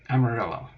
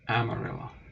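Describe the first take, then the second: First: The double L sounds like an L. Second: The double L sounds like a Y. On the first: This is how most people say it now. "pretty sure it's just pronounced Amarillo" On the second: This is the original Spanish pronunciation.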